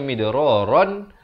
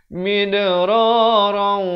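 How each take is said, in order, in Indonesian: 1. Kata ini berakhir dengan bunyi n yang jelas. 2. Akhirannya menyatu menjadi bunyi w sengau. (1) "asalnya midraran" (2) "terus masuk beserta dengung"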